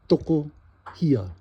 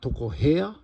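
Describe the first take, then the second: First: The last syllable has an 'ee' vowel. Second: The last syllable has an 'eh' vowel. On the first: The speaker calls it right. "get the he in there, hia" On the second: The speaker calls it wrong. "It isn't toko hea, as if it was a e"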